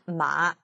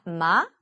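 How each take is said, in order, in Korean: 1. 낮게 내려갔다가 살짝 올라가요. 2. 질문하듯 올라가요. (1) "내려가다가 살짝 올리는데" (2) "의문문처럼 올리는 소리"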